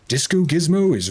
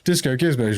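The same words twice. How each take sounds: First: It is spoken in a dramatic, cinematic narrator voice. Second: It is spoken in an ordinary, everyday voice. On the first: It holds the listener's attention. The speaker calls it right. "A more cinematic voice" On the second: It makes the listener feel like falling asleep. The speaker calls it wrong. "if I did it in my normal voice"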